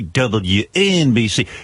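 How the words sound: It is said in a subdued, serious tone. It follows a slow song. "You're coming out of a slow song"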